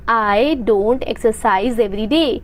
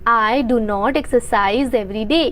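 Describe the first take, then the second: First: Do and not are joined into one word, don't. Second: Do and not are said as two separate words.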